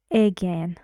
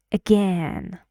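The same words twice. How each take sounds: First: "again" with a full, clear first vowel instead of a schwa; wrong first vowel. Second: "Again" with a short schwa "uh", then a strong "gen"; barely touch the "A" of "Again", stress "gen"; correct reduced first vowel. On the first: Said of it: "Never say again. It's wrong". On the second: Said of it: "It's wrong. Again". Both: Shown as a demonstration.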